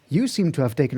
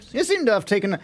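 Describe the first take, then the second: First: It is said in a put-on character voice. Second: It is said in the speaker's ordinary voice.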